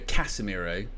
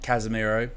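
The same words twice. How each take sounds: First: The first syllable has a clear s sound. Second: The first syllable has a flattened z sound. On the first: "I always go Casemiro" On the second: "sometimes they go Casemiro. They kind of flatten it all out"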